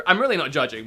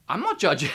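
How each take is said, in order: First: Said in the usual way. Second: High-pitched. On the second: Real, not acted. Reviewer insisting he isn't judging the game, high-pitched. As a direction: voice jumping up high on a denial. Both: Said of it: "My voice just went really high".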